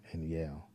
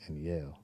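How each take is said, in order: Both takes have the same delivery.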